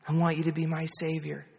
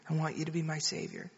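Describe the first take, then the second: First: Lightly voiced mother giving a prayer line; retold prayer, measured, for a child to repeat; mother leading prayer. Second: Quick, soft imitation of a child repeating; retold child's low, hurried repeat; child echoing prayer. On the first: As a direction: lead a child gently in prayer. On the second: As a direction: echo the prayer line quickly and quietly. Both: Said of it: "You just pray after me".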